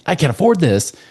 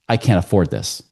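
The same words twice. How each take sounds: First: It is said as an emotional exclamation. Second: It is said as a flat statement.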